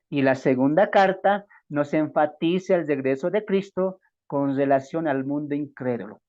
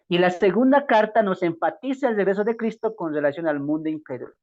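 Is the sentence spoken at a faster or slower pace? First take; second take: slower; faster. First: The sentence is spoken more slowly than before. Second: The sentence is spoken at a normal pace.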